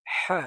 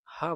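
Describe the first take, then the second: First: হা breathed hard from the throat, high and loud; throaty Arabic ha. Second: Said in the usual way. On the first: Shown as a demonstration. Teacher correcting the class on হা, throaty and loud. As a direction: say হা as a harsh throat ha. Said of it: "এটাকে বলবো". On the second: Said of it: "হা বলবো না".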